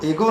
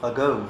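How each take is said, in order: First: It starts with 'ay' and ends in plain 'o'. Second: It starts with 'uh' and ends gliding 'ou'. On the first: The speaker calls it wrong. "वो एगो नहीं है" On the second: The speaker calls it right. "जो अंग्रेजी में कहा जाता है वह है अगौ"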